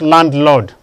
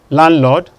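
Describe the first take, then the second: First: The first D is pronounced. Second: The first D is silent. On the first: The speaker calls it wrong. "not landlord" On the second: The speaker calls it right. "The D is silent too"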